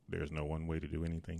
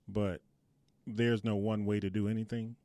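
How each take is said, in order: First: It is said in a deep radio DJ voice. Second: It is said in a normal speaking voice.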